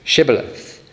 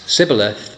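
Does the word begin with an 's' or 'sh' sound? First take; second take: sh; s. First: The word begins with an 'sh' sound. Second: The word begins with an 's' sound. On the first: This is how the guards say the word. The speaker calls it right. "they are asked to say this word" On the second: This marks the speaker as an Ephraimite. The speaker calls it wrong. "instead then they pronounce it Sibboleth"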